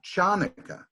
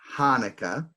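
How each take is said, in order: First: It begins with a ch sound like chair. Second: It begins with a plain breathy h sound. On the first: "also not Chanukah, even though it looks like it's Chanukah" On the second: "not Hanukkah with an H"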